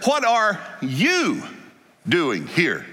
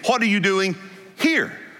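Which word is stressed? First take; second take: you; here. First: The stress is on you. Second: The stress is on here.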